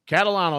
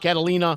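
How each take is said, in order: First: The name ends in -ano. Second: The name ends in -ina. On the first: The speaker calls it right. "that's it" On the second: The speaker calls it wrong. "A lot of people call me"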